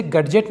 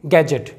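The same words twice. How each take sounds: First: गैजेट said "gad-jet" with audible D; D sounded. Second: गैजेट said "gai-jet" with no D; silent D. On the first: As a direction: break गैजेट with a D before J. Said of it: "गैजेट नहीं पढ़ेंगे". (गैजेट को "गड्जेट" बोलें) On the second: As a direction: go straight to the J in गैजेट. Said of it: "इसे पढ़ेंगे". (गैजेट में ड silent) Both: Shown as a demonstration.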